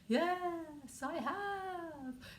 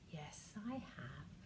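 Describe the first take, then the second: First: It is said in a ghostly voice. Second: It is said in a normal talking voice.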